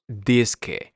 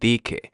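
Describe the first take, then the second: First: The S sound before the K is pronounced. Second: The S sound before the K is dropped.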